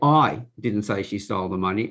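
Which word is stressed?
I. The stress is on the word I.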